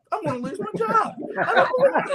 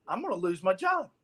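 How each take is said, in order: First: Mock panic. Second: Said in the usual way. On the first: Panicking on the phone, retold.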